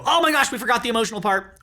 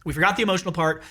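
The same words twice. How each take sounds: First: High, fast retold exclamation; mock alarm. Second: Said in the usual way. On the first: Husband seeing both wives weeping, mock alarm. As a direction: blurt it out quickly, as a retold realization.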